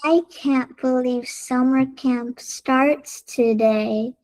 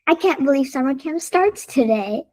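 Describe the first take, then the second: First: It is said very slowly. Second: It is said very fast.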